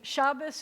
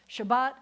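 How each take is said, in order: First: It ends in s with early stress. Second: It ends in t with final stress.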